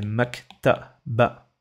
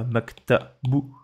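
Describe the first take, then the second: First: The word ends with an a vowel. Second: The word ends with a u vowel. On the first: The speaker calls it right. "Ça fait maktaba" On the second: The speaker calls it wrong. "C'est pas maktabou"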